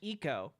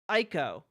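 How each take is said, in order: First: The name begins with an 'ee' sound. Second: The name does not begin with an 'ee' sound. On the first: The speaker calls it right. "supposed to be pronounced eco" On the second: The speaker calls it wrong. "I refuse to pronounce it that way"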